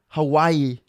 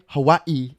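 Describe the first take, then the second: First: It is pronounced the way mainland Americans say it. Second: It is pronounced the way Hawaii locals say it. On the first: This is how people on the mainland say it. "We say Hawaii" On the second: This is how people from Hawaii say it. "over here we don't say Hawaii"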